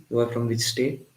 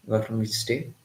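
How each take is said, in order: Both takes have the same delivery.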